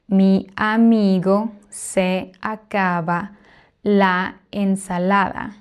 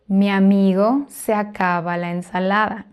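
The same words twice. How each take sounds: First: Each word is said separately, not joined. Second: The vowels across words run together smoothly. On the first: The speaker calls it wrong. "would not pronounce each word separately" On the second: The speaker calls it right. "we naturally link them"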